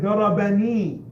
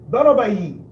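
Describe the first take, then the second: First: It has an n sound before the final vowel. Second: It ends without an n sound before the vowel. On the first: The speaker calls it right. "they put the noon" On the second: The speaker calls it wrong. "ضربي doesn't sound right. It's too heavy"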